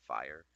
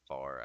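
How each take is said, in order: First: The vowel glides from 'ah' to 'ee'. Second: The vowel is a flat, single 'ah' sound. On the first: "I say fire" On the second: "Instead of saying far"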